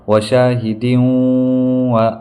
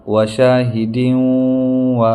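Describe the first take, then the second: The two takes are said the same way.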